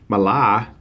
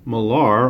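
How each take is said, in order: First: It is said in a Boston accent. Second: It is said in a plain American accent.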